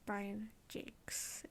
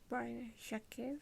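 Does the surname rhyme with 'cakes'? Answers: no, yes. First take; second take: yes; no. First: The surname rhymes with 'cakes'. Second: The surname does not rhyme with 'cakes'. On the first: The speaker calls it right. "It's actually" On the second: The speaker calls it wrong. "I always thought the author's name was"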